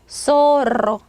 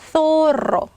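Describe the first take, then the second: First: The first sound is a plain s sound. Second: The first sound is a lisped th sound. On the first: This is how people in Latin America say it. "중남미 사람들 얘 발음하면 소로" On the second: This is how people in Spain say it. "스페인 사람들은요, 혀를 살짝 물고 스"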